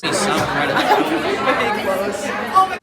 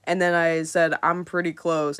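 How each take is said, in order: First: Slow, stretched I'm pretty close; drawn-out repeat. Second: Said in the usual way. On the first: Retold or imitated. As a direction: drag out pretty close teasingly.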